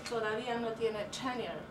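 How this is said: Tenure is pronounced like a native English speaker. The speaker is switching languages. "I try my best at pronouncing tenure in a way that it sounds native"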